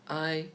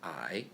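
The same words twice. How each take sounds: First: The pitch stays high and level. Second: The pitch dips down then rises.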